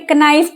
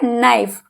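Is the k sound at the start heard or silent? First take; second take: heard; silent. First: The word begins with a pronounced k sound. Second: The word begins with an n sound, k silent. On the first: The speaker calls it wrong. "कुछ बच्चे इसे कनाइफ पढ़ते हैं, वो गलत हो गया" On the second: The speaker calls it right. "हमेशा एन से पहले अगर के है बेटे वो साइलेंट रहता"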